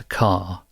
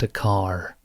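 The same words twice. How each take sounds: First: The R at the end is not pronounced. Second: The R at the end is clearly pronounced.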